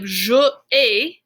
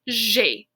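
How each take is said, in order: First: The two words are said as separate syllables. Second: The two words merge into one syllable. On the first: The speaker calls it wrong. "instead of je ai, because that's weird to say" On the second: The speaker calls it right. "we smush it together and it's j'ai"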